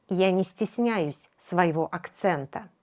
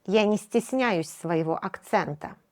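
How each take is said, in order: Both takes have the same delivery.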